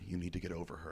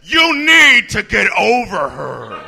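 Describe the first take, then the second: First: It is said at a normal speaking volume. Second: It is said much louder than normal speech. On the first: "They'll say something in a normal tone of voice" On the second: "they'll say the same line much louder"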